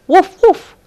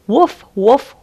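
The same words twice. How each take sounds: First: High, loud playful woof; a reader's yappy dog bark, much higher. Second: A reader's gruff bark, higher and a bit louder; storybook dog woof. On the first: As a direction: bark like an excited little dog. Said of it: "went the dog". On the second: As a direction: bark at the cat. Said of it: "It saw Tabby the cat". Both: Acted.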